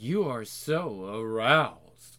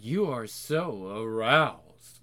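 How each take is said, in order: First: It is said in an excited tone. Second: It is said in an excited tone.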